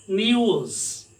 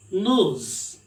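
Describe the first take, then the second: First: "news" with a y glide, nyooz; demonstrated British "news", drawn-out nyooz; British pronunciation. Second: "nose" said as nooz, no y glide; demonstrated American news: "nose" as plain nooz; American pronunciation. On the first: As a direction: say "news" slowly as nee-ooz. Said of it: "British people, they sound it as". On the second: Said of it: "American people, they sound". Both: Shown as a demonstration.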